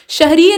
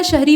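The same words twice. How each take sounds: First: शहरीय ending in ee-ya; extra syllable closing शहरीय; added -ya ending. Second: शहरी ending on long ee; no syllable after ee in शहरी; plain ee ending. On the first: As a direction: say शहरीय as shah-ree-ye. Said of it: "शहरीय नहीं होता". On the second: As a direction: say शहरी as shah-ree. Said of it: "शहरी होता है". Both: Shown as a demonstration.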